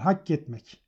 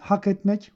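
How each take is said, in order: First: The k sound is doubled and held longer. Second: The k sound is short and single. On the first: It means to engrave something. "2 K ile söylüyor" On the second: It means to deserve something. "hukuktaki hakla aynı olan hak etmek"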